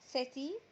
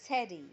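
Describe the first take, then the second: First: The t is a clear t sound. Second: The t is a soft American flap.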